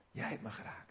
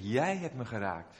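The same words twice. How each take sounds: First: Whispered, much softer, choked with tears; tearful whisper. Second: Said in the usual way. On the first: Retold or imitated. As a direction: breathe it out as if about to cry. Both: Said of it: "En toen begon hij te huilen".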